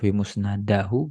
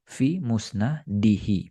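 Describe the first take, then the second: First: The case vowel after musnad is a. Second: The case vowel after musnad is i. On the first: The speaker calls it wrong. "Bukan kita baca" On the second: The speaker calls it right. "ya berarti kasroh"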